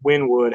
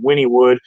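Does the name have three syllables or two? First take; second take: two; three. First: The name is said with two syllables. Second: The name is said with three syllables. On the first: The speaker calls it wrong. "I thought it was Winwood how you pronounce it" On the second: The speaker calls it right. "but I guess it's actually Winniewood"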